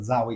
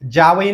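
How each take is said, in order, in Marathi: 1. पहिला व्यंजन 'dz' असा दंत्य उच्चार आहे. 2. पहिला व्यंजन 'j' असा तालव्य उच्चार आहे. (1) "म्हणजे दाताला स्पर्श होतो" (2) "जावई नाही म्हणत आपण"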